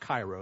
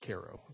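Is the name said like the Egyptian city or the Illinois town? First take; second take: Egyptian city; Illinois town. First: The name is pronounced like the Egyptian city. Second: The name is pronounced like the Illinois town. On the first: The speaker calls it wrong. "It's not Cairo" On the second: The speaker calls it right. "it's Cairo"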